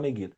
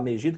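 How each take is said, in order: First: The g before i sounds hard, like g. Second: The g before i sounds soft, like zh. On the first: "quem fala Meguido" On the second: "Quem fala Megido"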